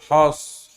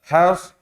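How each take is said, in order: First: The h is said thick and heavy. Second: The h is said thin and light. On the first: The speaker calls it wrong. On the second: The speaker calls it right.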